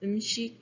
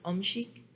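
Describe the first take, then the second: First: It is said with a standard Korean vowel. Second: It is said with a Busan dialect vowel.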